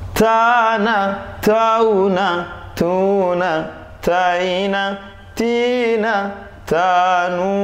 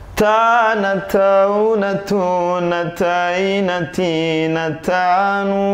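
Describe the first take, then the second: First: The syllables are read slowly. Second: The syllables are read fairly quickly.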